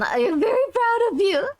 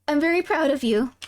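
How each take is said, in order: First: Higher, with a mock sob; tearful. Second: Said in the usual way. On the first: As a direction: gush it like a proud parent.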